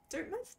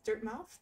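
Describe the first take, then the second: First: High puzzled. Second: Said in the usual way. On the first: Shown as a demonstration.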